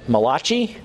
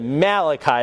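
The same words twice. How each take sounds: First: The name is said with an Italian-sounding accent. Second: The name is said with a plain English accent. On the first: "Malachi is the Italian prophet" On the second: "That's how you're supposed to pronounce it"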